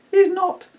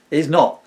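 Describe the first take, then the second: First: Loud, very high squeak; first little pig. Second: Loud, firm denial in a fuller voice; second little pig. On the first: Pig denies faking dog noises, high squeal. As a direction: squeal the denial as a piglet. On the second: Second pig covers for his brother, loud and firm. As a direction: deny it firmly, voice raised. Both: Acted. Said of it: "Oh, God, these voices".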